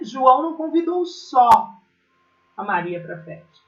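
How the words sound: It is said with a pause and changed intonation. He did not go alone to invite her.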